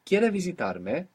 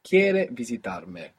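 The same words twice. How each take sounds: First: The voice rises at the end like a question. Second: The voice falls at the end like a statement. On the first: It asks whether you want to visit me. "you will just make it sound like a question with your voice" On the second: It states that you want to visit me. "You want to visit me"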